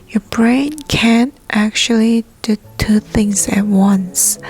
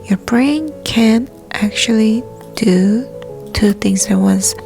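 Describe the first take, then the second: Both takes have the same delivery.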